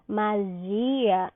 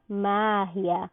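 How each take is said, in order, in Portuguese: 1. O acento cai onde o português o põe. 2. O acento cai onde o espanhol o põe.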